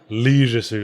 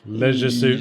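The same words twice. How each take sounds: First: The first vowel of leisure is long. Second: The first vowel of leisure is short. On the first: The speaker calls it wrong. "the original American pronunciation" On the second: The speaker calls it right. "I prefer the shorter vowel sounds"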